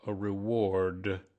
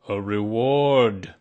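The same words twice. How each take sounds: First: Said in the usual way. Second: Slow, booming repeat from Owl; very loud. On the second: A narrator's reading. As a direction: say it very loudly, drawing it out. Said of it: "said Owl very loudly".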